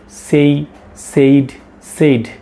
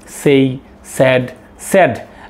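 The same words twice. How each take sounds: First: 'Said' is pronounced with a long 'ay' vowel. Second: 'Said' is pronounced with a short 'e' vowel. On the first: This is how most teachers in the country say it. The speaker calls it wrong. "maximum teachers they are saying say said said" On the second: This is how it should be said. The speaker calls it right. "but it will be say said said"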